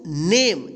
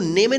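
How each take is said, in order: First: "नेम" as one syllable, silent final e; correct pronunciation. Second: "नेमे" with final e sounded; wrong pronunciation. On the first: Teacher answers how to read it, "नेम" with silent e. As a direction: end "नेम" firmly on the m. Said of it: "क्या पढ़ेंगे इसको?". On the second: Teacher warns pupils against a misreading, "नेमे" with extra vowel. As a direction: say "नेमे" in two syllables, nay-may. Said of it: "इसको नेमे नहीं पढ़ेंगे". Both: Shown as a demonstration.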